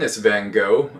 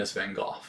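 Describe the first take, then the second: First: The name gets an American pronunciation. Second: The name gets a British, European pronunciation. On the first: "if you're American" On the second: "if you're British, if you're European"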